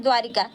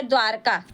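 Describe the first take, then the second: First: द्वारिका with an i after r, as people say it; common wrong form. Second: द्वारका said dwaar-ka, no i after r; correct pronunciation. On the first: Retold or imitated. Teacher quoting how students usually say it. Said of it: "लिखते हैं हम लोग द्वारिका". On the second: Shown as a demonstration. Teacher correcting students with the proper form. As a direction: drop the i and say द्वारका. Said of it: "जबकि होता है द्वारका".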